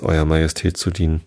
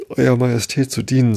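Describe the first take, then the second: First: Understated courteous reply, evenly spoken; mildly deferential politeness; very polite. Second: Higher-pitched, meek reply; humble subject, pitch raised. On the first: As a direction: answer a queen politely, without fuss. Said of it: "sagte Alice sehr höflich". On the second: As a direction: plead lightly, like a servant before the queen. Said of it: "in sehr demütigem Tone". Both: A narrator's reading.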